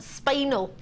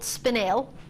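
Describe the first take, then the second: First: The word ends like the word spinal. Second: The word ends with a clear 'nel' sound. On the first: This is how many people say it. The speaker calls it wrong. "a lot of people call it spinal" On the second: This is the traditional way to say it. The speaker calls it right. "it's actually called spinel"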